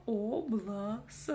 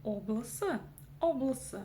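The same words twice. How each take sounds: First: «облыс» врастяжку, «о-блы-сы»; раздели «облыс» на медленные слоги; по слогам. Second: «облыс» слитно, с кратким «ы»; не тяни «ы» в «облыс»; короткое «ы». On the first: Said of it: "Следующее слово". («облыс» раздельно, с коротким «ы») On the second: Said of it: "читается коротко". («облыс» одним коротким словом) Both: Shown as a demonstration.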